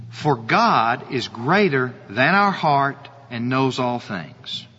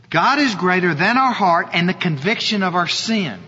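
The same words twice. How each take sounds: First: Slow, lower, hushed verse reading; reading scripture aloud. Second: Said in the usual way. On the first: Shown as a demonstration. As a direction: read the verse slowly and reverently, lower in pitch. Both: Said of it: "Look at continuing in the verse".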